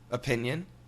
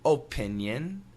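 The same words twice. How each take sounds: First: Relaxed, everyday American accent. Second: Careful, fully articulated American accent. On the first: "Typical American pronunciation" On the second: "perfect American pronunciation"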